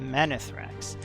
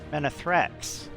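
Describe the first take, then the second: First: The stress is on the middle syllable. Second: The stress is on the last syllable. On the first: "I've just put the accent on the middle sy- syllable on man" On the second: "but I could put it on the last syllable"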